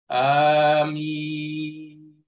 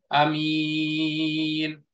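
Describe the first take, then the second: First: The first vowel is long, with a single m. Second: The first vowel is short, with a single m. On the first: "a-nya panjang, mimnya juga panjang, sama seperti yasin" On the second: "dibaca qasar, dibaca pendek. Hamzahnya dibaca pendek"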